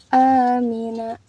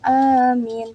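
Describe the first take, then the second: First: The word ends with its final vowel sounded. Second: The word ends on a consonant, vowel dropped. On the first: The reading continues without stopping. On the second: The reader stops at this word.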